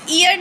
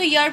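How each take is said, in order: First: ईयर said with a long ई, the wrong way; the mispronunciation to avoid. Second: यर said with a य glide, short; right way. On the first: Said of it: "इसको ईयर नहीं पढ़ते". (गलत उच्चारण ईयर) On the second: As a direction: start it with a y sound. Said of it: "इसको यर पढ़ते हैं". (सही उच्चारण यर) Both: Shown as a demonstration.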